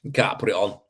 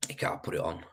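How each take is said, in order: First: Said in the usual way. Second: A soft unvoiced whisper, much quieter; whispered repeat. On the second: Shown as a demonstration. To himself about plastering in frost, whispered. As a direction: breathe it out as an afterthought.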